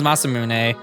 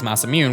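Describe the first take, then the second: First: The name is said with Japanese pronunciation. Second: The name is said with English pronunciation. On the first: "Japanese is Masamune" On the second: "the English term for it is Masamune"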